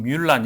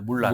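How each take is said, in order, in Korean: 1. 이 이름은 프랑스식으로 발음합니다. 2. 이 이름은 중국식으로 발음합니다. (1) "프랑스 같은 경우는 뮬란 이렇게 부르기도" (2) "중국 발음은 사실 물란입니다"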